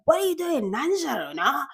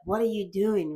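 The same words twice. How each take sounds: First: High, sing-out mum voice; scolding mother. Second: Relaxed, offhand question; casual with friends. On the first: Mother asking her child what they're up to, high-pitched scolding. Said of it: "like, a mother talking to her child". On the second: Friend casually asking a friend, easy and offhand. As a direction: ask it like chatting with a mate. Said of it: "casually, like, with friends". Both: Acted.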